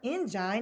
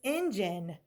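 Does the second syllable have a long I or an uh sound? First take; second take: long I; uh sound. First: The second vowel is a long I sound. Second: The second vowel is a weak uh sound. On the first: The speaker calls it wrong. "that's not engine" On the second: The speaker calls it right. "it's engine"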